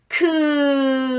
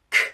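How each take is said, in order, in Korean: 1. 이 소리는 유성음이에요. 목에서 진동이 있어요. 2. 이 소리는 무성음이에요. 목에서 진동이 없어요. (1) "목젖이 막 움직여요. 그건 유성음이고요" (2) "목젖에 바이브레이션이 없어요. 그러면 이것이 무성음이거든요"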